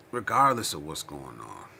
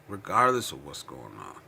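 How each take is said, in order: Both takes have the same delivery.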